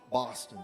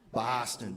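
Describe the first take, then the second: First: It is said in a Boston accent. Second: It is said in a Boston accent.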